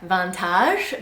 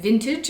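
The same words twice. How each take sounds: First: It is pronounced the French way. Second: It is pronounced the English way. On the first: This is not how the French actually say it. "That's how it would be said if it had the proper French pronunciations" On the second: This is how the French actually say it. "So this one is not said in the French way"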